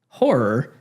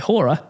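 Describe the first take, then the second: First: It is said in the speaker's usual accent. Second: It is said in an Australian accent.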